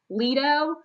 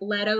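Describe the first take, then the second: First: It is not said like the actor's surname. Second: It is said like the actor's surname. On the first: The speaker calls it right. "I know that the Duke's name is" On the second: The speaker calls it wrong. "I kept seeing it like Leto, like Jared Leto"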